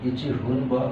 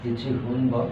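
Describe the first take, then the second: Both takes have the same delivery.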